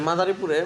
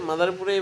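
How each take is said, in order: Both takes have the same delivery.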